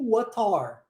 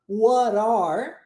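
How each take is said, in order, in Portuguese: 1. O t é ligado como um t claro. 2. O t é ligado e soa como r. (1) "juntá-lo com o som de T. Isso vai acontecer mais no inglês britânico" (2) "ou eu posso juntá-lo, transformando o em R"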